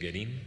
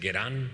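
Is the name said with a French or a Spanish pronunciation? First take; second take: Spanish; French. First: The name is said with Spanish pronunciation. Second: The name is said with French pronunciation. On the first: "pero todos le decimos Guerin" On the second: "pero es en francés, es Guerin"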